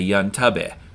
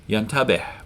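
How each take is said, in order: First: The word ends without a final breath sound. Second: The word ends with a small audible breath. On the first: The speaker calls it wrong. "we wouldn't say the H. We'd just say" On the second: The speaker calls it right. "with a little breath at the end to make the H"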